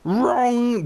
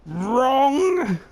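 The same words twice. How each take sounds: First: Much higher, louder held shriek; Junkrat yell retry. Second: Much higher, louder held shriek; bad Junkrat yell. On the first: Acted. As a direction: try the Junkrat buzzer shout again. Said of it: "used to have a really good Junkrat impression". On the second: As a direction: hold it out like a buzzer. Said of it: "that was terrible".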